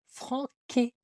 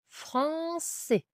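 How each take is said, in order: First: The c is pronounced as a k sound. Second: The c is pronounced as an s sound. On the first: The speaker calls it wrong. "Ou sinon, ça fera franqué" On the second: The speaker calls it right. "comme dans le mot français"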